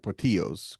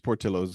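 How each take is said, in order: First: The name is pronounced the Spanish way. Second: The name is pronounced the Italian way. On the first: The speaker calls it wrong. "and not Portillos because it's not Spanish" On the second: The speaker calls it right. "I assume it's Portillo's ... because it's not Spanish. It's Italian"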